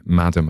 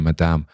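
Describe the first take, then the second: First: MADAM stressed on the first syllable, MAD-um; English Madam. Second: MADAME stressed on the second syllable, ma-DAM; French-style Madame. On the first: Explaining the chosen name, English-style MADAM. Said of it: "as I've chosen to call her rather than". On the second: Giving the rejected option, French-style MADAME. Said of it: "I could have picked Madame". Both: Shown as a demonstration.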